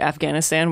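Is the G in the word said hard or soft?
hard. It has an American accent with a hard G. "it's a very Americanized way to say it, Afghanistan, with that hard G"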